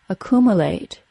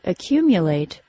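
First: The second syllable has a plain oo, no Y. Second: The second syllable has a Y sound before oo. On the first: The speaker calls it wrong. "pronounced as accumulate" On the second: The speaker calls it right. "words like accumulate"

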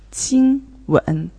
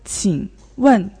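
First: First tone, then third tone. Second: Third tone, then fourth tone. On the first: It refers to a kiss. "first tone and the third tone" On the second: It is a polite request to ask something. "third tone and the fourth tone"

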